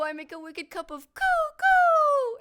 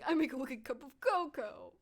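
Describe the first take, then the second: First: Cocoa is wildly exaggerated, like a bird. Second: Cocoa is said plainly in a womanly voice.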